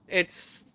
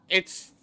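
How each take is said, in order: Both takes have the same delivery.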